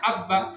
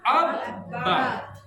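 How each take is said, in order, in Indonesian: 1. Huruf b yang dobel dibaca pendek dan ditekan lemah. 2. Huruf b yang dobel dibaca panjang dan ditekan kuat. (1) "Jangan hanya abba, nggak bisa" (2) "ditekan banyak"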